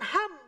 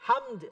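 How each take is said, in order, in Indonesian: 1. Kata itu berakhir tanpa bunyi d. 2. Kata itu berakhir dengan bunyi d.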